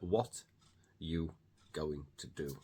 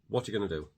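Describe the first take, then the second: First: The word are is left out entirely. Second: The word are is heard after what. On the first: "many people drop are completely and just say" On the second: "So I said"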